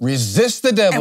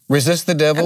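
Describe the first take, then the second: First: It is said forcefully, with conviction. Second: It is read flatly, without conviction.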